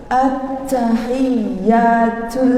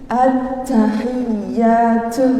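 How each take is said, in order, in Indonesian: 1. Huruf t dilepaskan dengan desis yang kuat. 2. Huruf t dilepaskan dengan desis yang kuat.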